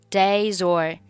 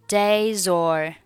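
No difference in how they are said.

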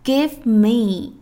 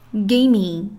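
First: Both words are said clearly and fully. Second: The words merge into one short word. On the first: "标准形式" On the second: "缩读形式"

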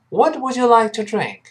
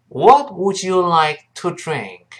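First: The sentence is said quickly. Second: The sentence is said slowly. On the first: "再快一点" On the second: "我们跟老师慢慢读一遍"

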